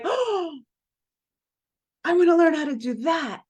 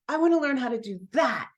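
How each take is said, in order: First: Thrilled discovery, voice shooting up; excited outburst. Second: A calmer, determined echo; eager echo. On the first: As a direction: burst out with sudden eagerness. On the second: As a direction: settle back into wanting it. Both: Retold or imitated. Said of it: "And I'm like".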